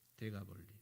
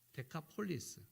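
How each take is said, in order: First: It is said softly as Degabolli, without final s. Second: It is said as Dekapolis, ending in an s. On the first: This is the customary local rendering. "데가볼리라고 우리는 발음을 하지만" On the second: This is the original form of the name. "원래의 정상적인 발음은 데카폴리스"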